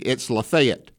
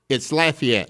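First: It is said the way Mississippi locals say it. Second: It is said the way Louisiana locals say it. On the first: "Here in Mississippi" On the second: "Lafayette in Louisiana"

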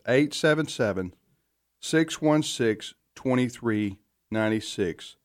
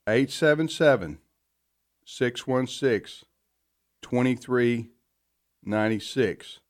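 First: The number is said at normal speed. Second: The number is said slowly and drawn out.

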